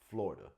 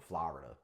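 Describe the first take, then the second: First: It is said in a New York accent. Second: It is said hard, in a New England accent.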